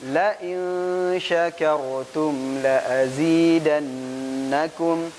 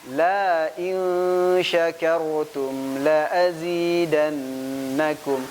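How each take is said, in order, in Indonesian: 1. Vokal pada 'la' pembuka itu pendek. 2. Vokal pada 'la' pembuka itu dipanjangkan. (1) "Yang pertama gak ditambahkan alif" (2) "yang kedua ditambah alif"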